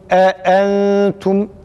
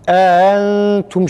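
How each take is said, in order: First: Both glottal stops are clearly pronounced. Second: The second glottal stop is dropped. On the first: The speaker calls it right. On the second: The speaker calls it wrong.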